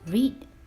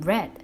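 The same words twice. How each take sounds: First: The vowel is long, rhyming with need. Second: The vowel is short, rhyming with bed. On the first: It is the present tense. "Read will become read" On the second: It is the past tense. "the pronunciation is not the same"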